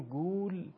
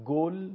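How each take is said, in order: First: گول with a long drawn u, as guul; long u vowel. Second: گل with a short o, as gol; short Persian o. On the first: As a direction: stretch the u in گول. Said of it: "واو مدی رو تلفظ بکنیم". (گول با واو مدی کشیده) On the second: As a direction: say گل short, vowel o. (گل با ضمهٔ کوتاه فارسی) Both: Shown as a demonstration.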